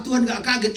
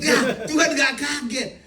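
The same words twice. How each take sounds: First: Said in the usual way. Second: "Tuhan" raised high and stressed, the line said slowly; emphatic slow repeat. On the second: Shown as a demonstration. Preacher hammering home "Tuhan" to the congregation. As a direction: lean on "Tuhan", drawing the whole line out.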